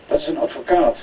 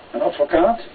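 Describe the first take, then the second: First: Said in the usual way. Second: ADVOCAAT as a question, rising at the end; questioning echo. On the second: A narrator's reading. Companion repeats the answer in surprise, ADVOCAAT rising as a question. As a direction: echo it back with a rise on ADVOCAAT.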